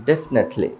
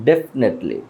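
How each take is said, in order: No difference in how they are said.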